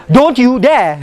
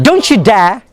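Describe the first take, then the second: First: "Don't you dare" with "Don't" and "you" kept apart; no CH in "Don't you", each word separate; unlinked words. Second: "don't you dare" as "don-choo dare"; "don't you" joined with a ch sound; linked t-y sound. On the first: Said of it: "so we always say". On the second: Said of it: "That's why don't you becomes". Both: Shown as a demonstration.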